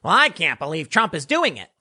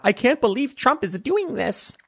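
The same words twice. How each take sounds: First: A lightly voiced, level Hillary in the speaker's own pitch; a hint of Hillary Clinton, no pitch lift; Hillary Clinton impression. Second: Higher, whiny mock Hillary voice; a shrill-sounding parody of the politician, pitched up; imitating Hillary Clinton, pitched high. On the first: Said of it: "She more talks like this". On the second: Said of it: "she doesn't talk like that".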